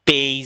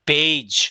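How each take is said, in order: First: The final consonant is not a 'j' sound. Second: The final consonant is a 'j' sound. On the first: The speaker calls it wrong. "অনেকে বলে পেজ ... এরকম না" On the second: The speaker calls it right. "এই যে জি ... এভাবে"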